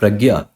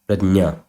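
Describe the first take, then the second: First: The middle cluster is pronounced g-y. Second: The middle cluster is pronounced j-n. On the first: The speaker calls it wrong. "It is not pragya" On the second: The speaker calls it right. "It is prajna"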